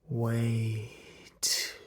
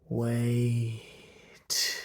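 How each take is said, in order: Both takes have the same delivery.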